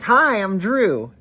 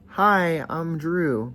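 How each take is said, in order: First: It is said enthusiastically, with lively energy. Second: It is said flatly, with little energy. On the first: The speaker calls it right. "when I say enthusiasm" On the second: The speaker calls it wrong. "instead of being like"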